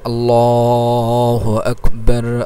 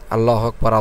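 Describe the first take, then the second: First: The phrase is said slowly with drawn-out sounds. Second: The phrase is said quickly and hurried. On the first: The speaker calls it right. "এরকম টেনে টেনে একটু ধীরে ধীরে" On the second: The speaker calls it wrong. "ইকামতের মতো দ্রুত আজান দিয়ে যাবেন"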